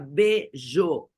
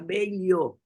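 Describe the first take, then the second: First: The double L sounds like a zh sound. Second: The double L sounds like an L sound. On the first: "nos países que falam L L como J" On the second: "L L como L, então seria belho"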